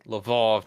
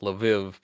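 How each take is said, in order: First: The name ends with an 'ov' sound. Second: The name ends with an 'iv' sound. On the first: It uses the Polish form of the name. "that's the Polish pronunciation" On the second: It uses the non-Polish form of the name. "not Lviv"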